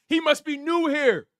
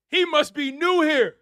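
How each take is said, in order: Both takes have the same delivery.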